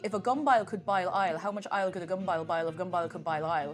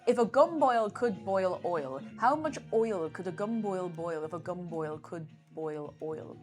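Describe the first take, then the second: First: Boil and oil sound like bile and ile. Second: Boil and oil keep their usual oi vowel.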